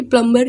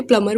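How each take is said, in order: First: प्लम्बर with an audible B before the final syllable; B pronounced. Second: प्लम्बर with the B silent, as "plummer". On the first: Teacher quoting the rejected pronunciation, प्लम्बर with B sounded. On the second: Teacher quoting the taught pronunciation, प्लम्बर with silent B. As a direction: drop the B in प्लम्बर. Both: Shown as a demonstration. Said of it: "बी silent है".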